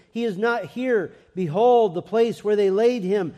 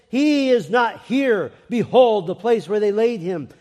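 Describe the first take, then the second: First: Raised reading, BEHOLD hit hard; angel's announcement. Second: Loud, high, stretched "He is not here"; emphatic proclamation. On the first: Preacher reads the angel's words to the church, proclaiming. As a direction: read it out firmly, punching "Behold". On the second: Angel announces the greatest event in history, proclaimed loudly. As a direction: proclaim it at full force, hitting "Behold". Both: A narrator's reading.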